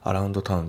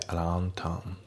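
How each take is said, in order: First: アラウンドタウン with the d kept, louder and fast; unlinked reading. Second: アラウンドタウン said as aroun town; アラウンドタウン without d; dropped d. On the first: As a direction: say アラウンドタウン with a full d. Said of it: "アラウンドタウンじゃなくて". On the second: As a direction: drop the d in アラウンドタウン. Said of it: "アラウンドのDが抜けますね". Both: Shown as a demonstration.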